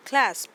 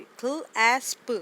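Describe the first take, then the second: First: "क्लैस्प" said as one joined word, louder; blended whole word. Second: "क्ल एस्प" split into two parts, slowly; sounded out slowly. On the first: ("क्लैस्प" को एक साथ जोड़कर बोलें) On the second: ("क्ल एस्प" को धीरे-धीरे टुकड़ों में बोलें) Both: Shown as a demonstration. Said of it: "consonant blend है और एंड पे भी".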